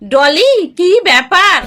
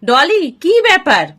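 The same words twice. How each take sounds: First: It is said as a mocking imitation. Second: It is said as a plain, puzzled question. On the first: Someone else's words are mimicked to ridicule them. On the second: Someone asks what is going on.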